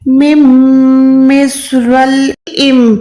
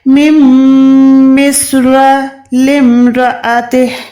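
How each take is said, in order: First: The L is closed off without a vowel. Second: The L carries an i vowel into the M. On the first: The speaker calls it wrong. "ऐसे पढ़ते हैं ... लाम पे जज़म लगा देते हैं" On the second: The speaker calls it right. "लाम पे जेर ... मीम के साथ पढ़ना है"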